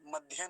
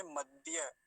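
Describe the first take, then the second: First: मध्य with aspirated dh before ya; wrong dhya. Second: मध्य with plain unaspirated d into ya; correct dya. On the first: Teacher warning against a mistake, aspirated dhya. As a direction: add a puff to the d in मध्य. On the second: Teacher giving the correction, clean dya. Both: Shown as a demonstration. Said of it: "नहीं बोलेंगे".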